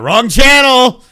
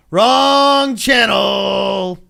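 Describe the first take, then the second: First: Louder, higher, a bit slow "Wrong channel"; playful louder call of "Wrong channel"; mock warning. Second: "Wrong channel" stretched very slow and called out; slow, sing-song mock shout of "Wrong channel"; drawn-out call. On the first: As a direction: bark "Wrong channel" as a joking alarm. Quickly steering off topic. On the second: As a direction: drag out every sound of "Wrong channel". Repeating the warning drawn out.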